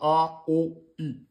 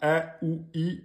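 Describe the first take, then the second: First: The vowels sound heavy and darkened. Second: The vowels sound light and thin. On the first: The speaker calls it wrong. "et non pas" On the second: The speaker calls it right. "c'est une lettre amincie, donc vous dites bien"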